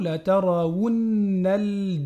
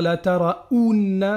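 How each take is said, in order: First: The middle vowel has a clear w before it. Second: The middle vowel is a plain ou sound. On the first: The speaker calls it right. "c'est un wou, c'est pas un ou" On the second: The speaker calls it wrong. "il ne faut pas dire la taraounna"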